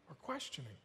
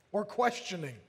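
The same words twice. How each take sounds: First: Much softer, lower "or questioning"; hushed, low echo of the phrase; quiet repeat. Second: Said in the usual way. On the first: Real, not acted. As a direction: drop it right down as an aside. Repeats the words as quiet aside.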